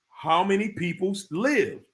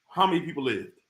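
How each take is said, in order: First: It is said slowly and deliberately. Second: It is said at a normal pace.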